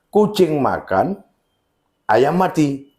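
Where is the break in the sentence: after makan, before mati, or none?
after makan. There is a break after the word makan. The cat is eating while a chicken lies dead. "si kucing sedang makan, si ayam juga mati di sana"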